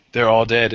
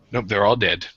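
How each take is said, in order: First: Laughing. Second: Said in the usual way. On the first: Real, not acted.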